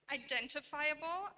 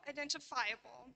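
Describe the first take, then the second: First: "Identifiable" stressed on DEN, with a plain FY; "Identifiable" as i-DEN-tifiable, rising as first of two; stress shift demo. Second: "identifiable" stressed on FI; "identifiable" as identi-FI-able, the second variant; stress shift demo. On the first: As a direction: put the main stress of "Identifiable" on its second syllable, DEN. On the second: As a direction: move the main stress of "identifiable" late, onto FI. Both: Shown as a demonstration. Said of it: "exhibit variation in their primary stress".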